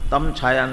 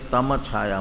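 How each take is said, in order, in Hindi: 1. m कटा हुआ है, उसके बाद कोई स्वर नहीं है। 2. m पूरा है, उसके बाद एक स्वर है। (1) "तम छाया नहीं" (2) "म पूरा"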